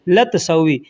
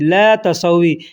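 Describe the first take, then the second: First: The phrase is said fast with the vowel shortened. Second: The phrase is said slowly with both words separate.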